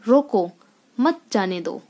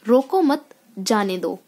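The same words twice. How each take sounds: First: There is a pause after 'roko'. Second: There is a pause after 'mat'. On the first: "अब रोको के बाद यहाँ मैंने थोड़ी देर के" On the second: "रोको मत के बाद हमें थोड़ी देर ठहरना पड़ा"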